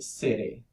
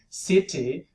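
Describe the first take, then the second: First: The middle consonant is a quick tap. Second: The middle consonant is a full t stop. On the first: "you say city" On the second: "instead of saying city"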